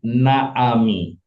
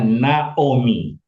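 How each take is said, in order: First: The second vowel sounds like 'a'. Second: The second vowel sounds like 'o'. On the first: The speaker calls it wrong. "ini bacanya bukan Naami" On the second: The speaker calls it right. "Ini bacanya Naomi"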